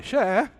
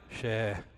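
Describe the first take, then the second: First: "Xé." said high and loud, an eager yes; xé meaning yes. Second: "Xé." said low and soft with a falling tune, meaning no. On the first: Preacher shows the Itapeva "Xé." said high and loud to mean of course. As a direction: pop "Xé." up bright and loud like of course. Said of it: "Vai, lógico". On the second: Preacher shows the Itapeva "Xé." said low to mean no. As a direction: drop "Xé." low and quiet, like shrugging off the idea. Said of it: "Acho que não". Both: Shown as a demonstration.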